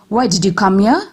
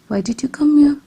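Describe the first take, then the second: First: The voice sounds angry and harsh. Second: The voice sounds curious and interested. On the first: "This shows an angry tone of voice" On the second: "This shows a curious tone of voice"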